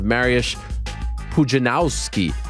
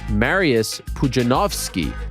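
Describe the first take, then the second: First: The letter W is said as an English W. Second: The letter W is said as a V. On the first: The speaker calls it wrong. "we've been saying it wrong" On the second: The speaker calls it right. "The W is a V in Polish"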